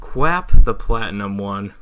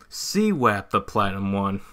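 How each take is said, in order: First: The name begins with a 'kw' sound. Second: The name begins with a 'see-w' sound. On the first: The speaker calls it wrong. "No, not really" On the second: The speaker calls it right. "It's actually pronounced this way"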